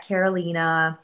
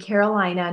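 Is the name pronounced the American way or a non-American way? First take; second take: non-American; American. First: The name has a non-American, original pronunciation. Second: The name has an American English pronunciation. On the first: The name keeps its original form. "not Carolina" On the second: The name is adapted to fit in. "as Americanized as I possibly could"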